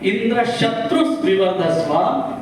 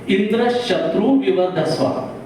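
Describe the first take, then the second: First: The stress falls on the word Shatru. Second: The stress falls on the word Indra. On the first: The one whose enemy is Indra will be finished. "pronounce it like" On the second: The enemy of Indra will be eliminated. "When we give the pressure on the word like Indra"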